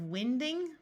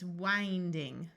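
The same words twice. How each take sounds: First: The i is a short vowel sound. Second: The i is a long vowel sound. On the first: It is built from the noun wind. The speaker calls it wrong. "Have you ever heard of winding? That doesn't make sense" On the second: It is built from the verb wind. The speaker calls it right. "we need the verb, so it's winding"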